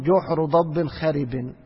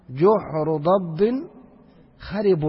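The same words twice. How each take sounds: First: جحر ضب خرب slowly, خرب ending in i as xeribin, matching ضب; the Arabs' saying. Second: جحر ضب خرب very slow, خرب ending in u to agree with جحر; correct case ending. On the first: Teacher quoting the Arabs' actual saying, slow and clear. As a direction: let خرب take the kasra of its neighbour ضب. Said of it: "فهم يقولون". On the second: Teacher showing students the correct form, slow and deliberate. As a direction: spell out خرب as kharibun, the grammatical form. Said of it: "فالمفروض يقولوا إيش؟". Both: Shown as a demonstration.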